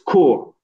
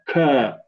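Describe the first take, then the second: First: The syllable has a rounded 'oo' vowel. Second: The syllable has an open 'ah' vowel. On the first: The speaker calls it right. "It's core" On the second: The speaker calls it wrong. "You're saying ka"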